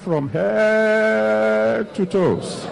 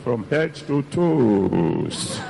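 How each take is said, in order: First: The word head carries the strongest stress. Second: The word toes carries the strongest stress. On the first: The wife wants something for her head. "When you put the emphasis on the head, he knows" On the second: The wife wants a new pair of shoes. "If it is a new pair of shoes you want, then you change the prayer"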